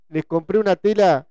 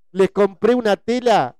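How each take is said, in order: Both takes have the same delivery.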